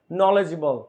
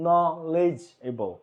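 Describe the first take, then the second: First: Said in the usual way. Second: নলেজেবল drawn out very slowly; slow syllable demo. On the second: Shown as a demonstration. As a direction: stretch each syllable of নলেজেবল. (নলেজেবল খুব ধীরে উচ্চারণ) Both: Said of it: "syllable demo".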